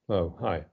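The greeting sounds dismissive and offhand.

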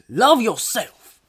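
It is said in an attempted put-on voice.

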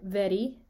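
The R is a quick single tongue tap. "very in a Scottish accent"

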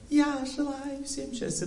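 It is said in an emotional voice.

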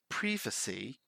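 The first syllable has a short 'i', as in 'privy'. "in British English, we say privacy"

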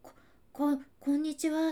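It is stammered in a high, frightened voice.

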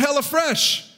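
The O is slurred in a southern accent. The speaker calls it wrong. "because my southern accent"

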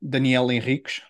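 The name is said with Portuguese pronunciation. "if you're going to try and say it in Portuguese"

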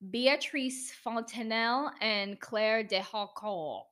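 The names are said with a French accent. "I said that in my French accent"

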